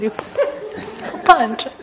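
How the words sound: It is said with an Italian accent.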